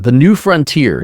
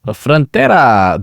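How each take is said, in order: First: Said in the usual way. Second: "Frontera" drawn out slowly, Spanish-style, with a rolled flourish. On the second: Pretend. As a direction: savour "Frontera" like a Spanish name.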